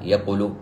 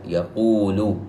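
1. الحركة مُقصَّرة. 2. الحركة مُمدودة. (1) "ولم أنطقها يقول" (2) "يقول بهذه الطريقة"

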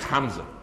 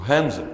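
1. يبدأ بصوت h خشن حلقي. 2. يبدأ بصوت h ناعم وبسيط. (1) "بلاش تسمي ابنك حمزه" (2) "الاجنبي يقول عليها ايه؟ يقول همزه"

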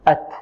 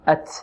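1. التاء واضحة بلا صفير يشبه السين. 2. في التاء صفير يشبه السين. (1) "إذا نقول هكذا" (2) "البعض يشرب التاء رائحة السين"

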